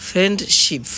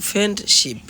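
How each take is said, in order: The two takes are said the same way.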